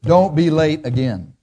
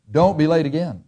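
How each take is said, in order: First: Slow, firm and final, DONT leaned on; calm unbending boss; firm reproof. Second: Calm unbending boss; firm reproof. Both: Shown as a demonstration. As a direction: lay down the rule without arguing. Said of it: "Here's the reproof".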